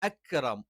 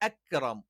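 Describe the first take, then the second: The two takes are said the same way.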